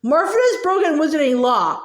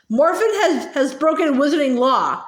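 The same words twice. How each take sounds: First: Mocking Ogden's pompous sing-song; pompous sing-song mimicry. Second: Stern. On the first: Gaunt mocking the official, pompous sing-song. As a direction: parrot his words in a pompous lilt. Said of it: "imitated Ogden's voice, making it pompous and sing-song". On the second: A narrator's reading. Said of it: "said Ogden sternly".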